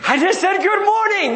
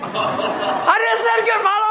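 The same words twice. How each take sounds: First: Higher, indignant protest; a touch of offended wife; wife defending herself. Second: Much higher, laughing half-shout; exasperated wife. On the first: Wife protesting to grumpy husband, mildly indignant. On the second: Wife repeating herself to grumpy husband, exasperated half-shout. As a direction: throw it up in exasperation. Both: Retold or imitated. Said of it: "You know?".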